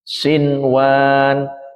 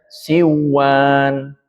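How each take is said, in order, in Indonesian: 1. Bunyi n terdengar jelas sebelum w. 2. Bunyi n menyatu ke dalam w. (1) "Maka nunnya dibaca jelas di sini" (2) "Bukan dibaca siwan"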